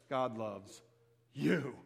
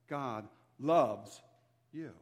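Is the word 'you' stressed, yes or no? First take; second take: yes; no. First: The stress falls on the word 'you'. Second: The word 'you' is not stressed.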